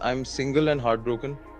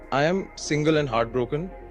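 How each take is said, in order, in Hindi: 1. इसे वक्ता के सामान्य लहजे में कहा गया है। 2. इसे बनावटी नाइजीरियाई लहजे में कहा गया है।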